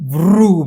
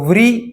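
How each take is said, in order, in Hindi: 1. अक्षर एक गोलाकार 'ru' स्वर पर समाप्त होता है। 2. अक्षर 'ri' ध्वनि पर समाप्त होता है। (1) "रु इस स्वर को व में मिलाने से वृ बना है" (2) "हिंदी भाषिक लोग ... इस तरह से उच्चार करते हैं, जो ... संस्कृत व्याकरण दृष्टया गलत है"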